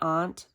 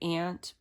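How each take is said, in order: First: It is said with a New England pronunciation. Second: It is said with a general American pronunciation. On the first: "in New England we say aunt" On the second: "most Americans say aunt"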